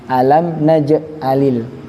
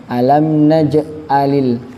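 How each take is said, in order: No difference in how they are said.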